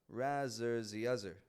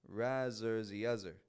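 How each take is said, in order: Both takes have the same delivery.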